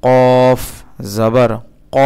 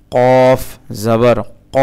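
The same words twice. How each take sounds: The two takes are said the same way.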